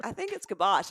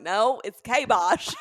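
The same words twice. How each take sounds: First: "kibosh" said as kuh-BOSH; short, light first syllable in "kibosh"; corrected pronunciation. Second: "kabosh" as a drawn-out, loud KAY-bosh; mock insistence on KAY in "kabosh"; imitated mispronunciation. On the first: Retold or imitated. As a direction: stress the second syllable of "kibosh". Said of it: "one time I was like". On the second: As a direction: mimic "kabosh" with a long A. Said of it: "and you're like".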